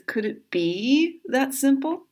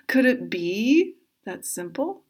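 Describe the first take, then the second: First: It is said in a plain voice. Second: It is said imitating Chandler Bing.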